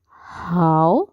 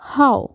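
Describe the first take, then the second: First: The pitch does not fall sharply. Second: The pitch falls sharply from high. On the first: Good. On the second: Number.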